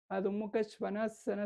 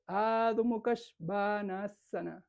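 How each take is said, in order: First: Said in the usual way. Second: Adho Mukha Svanasana slow, with long a sounds; lengthened Sanskrit vowels. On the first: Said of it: "Y no se dice". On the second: Shown as a demonstration. Teacher showing the very different correct form, Adho Mukha Svanasana drawn out. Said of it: "Es muy diferente".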